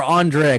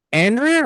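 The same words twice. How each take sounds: First: Andrea said on-DRAY-uh; alternate pronunciation. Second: Andrea said AN-dree-uh; Andrea, stressed up front as AN-dree-uh; English pronunciation. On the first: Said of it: "he says it differently from every other character". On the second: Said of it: "Is it Andrea or Andrea?". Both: Shown as a demonstration.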